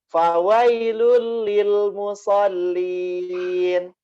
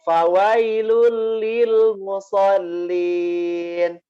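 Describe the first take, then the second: Both takes have the same delivery.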